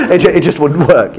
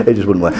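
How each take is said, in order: First: Laughing through the words. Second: Said in the usual way. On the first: Real, not acted. Lecturer laughing at the French doorstep joke. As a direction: laugh it out, amused.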